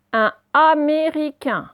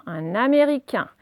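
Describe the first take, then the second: First: Slow, loud, higher dictation of each syllable. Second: Said in the usual way. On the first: Shown as a demonstration. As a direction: sound "Américain" out slowly for pupils. Sounded out, then said normally.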